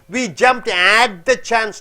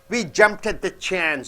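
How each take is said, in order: First: The word 'at' is full and stressed. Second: The word 'at' is weak and unstressed. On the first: The speaker calls it wrong. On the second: The speaker calls it right. "At unstressed T"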